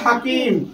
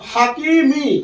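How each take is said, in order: First: The word ends on the consonant m. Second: The word ends with a short i vowel. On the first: The reader stops at this word. "দাঁড়ালে কি হবে হাকিম" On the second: The reading continues without stopping. "আসলে হবে কি হাকিমি"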